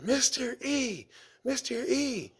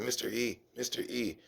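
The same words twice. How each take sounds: First: It is said at a louder volume. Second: It is said at a quieter volume.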